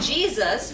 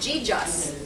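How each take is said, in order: First: The middle consonant is a z sound. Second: The middle consonant is a j sound.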